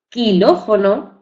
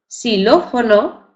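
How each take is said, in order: First: The word does not begin with plain s. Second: The word begins with a plain s sound. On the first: The speaker calls it wrong. "no decimos quilófono" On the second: The speaker calls it right. "la pronunciamos con la letra S"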